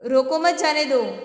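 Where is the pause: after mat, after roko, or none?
none. It is said without any pause inside. The meaning is unclear. "समझ में नहीं आता है कि क्या बोल रहा है।"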